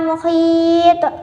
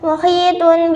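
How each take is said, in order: First: The word ends on a consonant. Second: The word ends with a full vowel ending. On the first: The reader stops on this word. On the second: The word is read without stopping.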